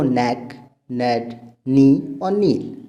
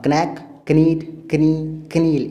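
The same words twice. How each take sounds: First: Slow "नेक, नेट, नी और नील", starting on N; correct pronunciation. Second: Slow "क्नैक, कनीट, कनी, कनील", each starting with K; wrong pronunciation. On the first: Teacher listing how they are said, correctly pronounced. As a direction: list them with K silent. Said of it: "आप बोलते हो". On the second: Teacher listing how not to say them, mispronounced. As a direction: sound the K before every N. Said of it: "ये नहीं बोलते हो". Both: Shown as a demonstration.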